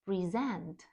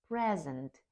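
First: Pre-SENT, the verb; stress on second syllable. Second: PRE-sent, the noun; stress on first syllable. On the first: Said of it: "наголос на другому складі". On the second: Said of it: "наголос на першому складі". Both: Shown as a demonstration.

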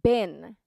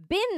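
First: "been" with a short, lax vowel like "bin". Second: "been" with a long, clear EE; long vowel. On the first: Teacher correcting learners, short-vowel "been". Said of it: "beenではなく". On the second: Teacher showing the version to avoid, long-EE "been". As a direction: stretch "been" to rhyme with seen. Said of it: "beenのところはbeenではなく". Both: Shown as a demonstration.

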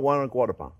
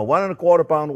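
First: Said in the usual way. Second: Quarter stressed, said faster and louder; fixing his own mistake, firmly; emphatic correction. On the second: Real, not acted. Chef correcting his amount aloud, emphatic and quick. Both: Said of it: "uh, no, no".

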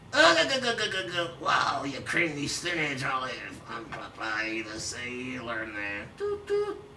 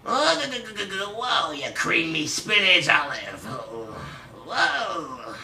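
First: Cartoon sailor chuckle sinking into softer mumble; lightly voiced cartoon sailor; Popeye. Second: Punchier mocking cartoon sailor; Popeye. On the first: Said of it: "That Popeye impression sucked". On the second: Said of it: "You do a Popeye impression then".

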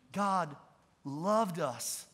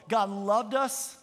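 First: "God", pause, then "loved us" softer and lower; emphatic repeat. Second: Said in the usual way. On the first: Real, not acted. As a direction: repeat "God loved us" slowly, pausing after "God". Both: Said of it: "Let me say that again".

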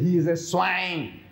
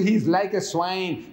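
First: He is a swine, said slow and firm, no like; the preacher states it flat out: He is a swine, a bit slow; stress on is. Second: Said in the usual way. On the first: Shown as a demonstration. Preacher correcting the congregation, firm and deliberate. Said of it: "You say". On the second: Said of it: "You don't say".

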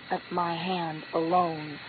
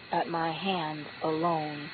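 No difference in how they are said.

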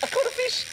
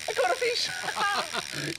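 First: High, thrilled shout of joy; excited squeal. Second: Slow, high, stretched cry of joy; drawn-out excited cry. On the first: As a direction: squeal it with delight. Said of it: "excited catch". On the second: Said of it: "repeated slow". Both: Acted.

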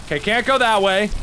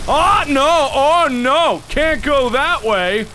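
First: Said in the usual way. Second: Raised, drawn-out cries of dismay; alarmed exclaiming. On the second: Real, not acted. Player finding the way blocked, alarmed exclaiming. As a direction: call it out in rising panic.

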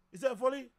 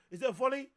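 The two takes are said the same way.

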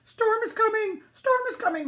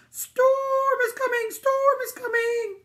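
First: High, loud dog's alarm; excited sheepdog calling out; barking dog. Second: High, slow, loud sheep voice; drawn-out, alarmed sheep cry; bleating sheep. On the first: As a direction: yelp out an urgent warning. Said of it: "barked the dog". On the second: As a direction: stretch the vowels into a bleat. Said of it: "the sheep bleated". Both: A narrator's reading.

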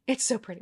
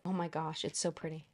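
First: Said in the usual way. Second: Softer, breathless awe; real quiet awe at the packaging; awed hush. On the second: Real, not acted. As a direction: murmur it like you can't believe it. Awed murmur at the box.

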